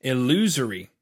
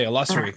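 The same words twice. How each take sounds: First: Long "oo" and buzzing z in "Illusory"; alternative pronunciation. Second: Short "uh" and hissed s sound in "illusory"; own pronunciation. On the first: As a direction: say "Illusory" as il-LOO-zery. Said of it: "I have to think about that". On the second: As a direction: say "illusory" as il-LUSS-ery. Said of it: "'cause I would say illusory". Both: Shown as a demonstration.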